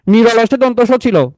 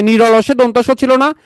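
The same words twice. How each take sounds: First: Slow, falling statement ending on ছিল; confirming tune. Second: Slow, rising question on ছিল না?; asking tune. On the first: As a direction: settle ছিল down firmly, slowly. (নিশ্চিত সুরে ছিল শব্দে নিচে নামানো) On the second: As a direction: lift ছিল না? up at the end, slowly. (প্রশ্নের সুরে ছিল না? শেষে ওপরে তোলা) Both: Shown as a demonstration.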